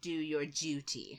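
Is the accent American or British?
British. It is said in a British accent.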